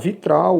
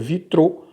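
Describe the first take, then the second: First: The word ends with an 'al' sound. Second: The word ends with an 'o' sound. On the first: This is the common way to say it. "É comum falar vitral" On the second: This is a less common way to say it. "eu já vi a pronúncia vitrô"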